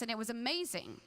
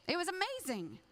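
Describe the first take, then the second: First: Said in the usual way. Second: "amazing" lifted much higher; emphatic repeat. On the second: Shown as a demonstration. Preacher recalling the youth retreat, raised with delight.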